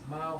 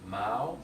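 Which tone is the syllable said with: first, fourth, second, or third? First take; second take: first; second. First: The syllable is said with the first tone. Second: The syllable is said with the second tone. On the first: It means cat. "this Mao first tone means cat" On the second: It means anchor of a ship. "Mao second tone means anchor of a ship"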